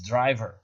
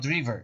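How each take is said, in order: First: The word is said with the standard pronunciation. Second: The word is said with a non-standard pronunciation. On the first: The speaker calls it right. "it's driver" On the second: The speaker calls it wrong. "So it's not driver"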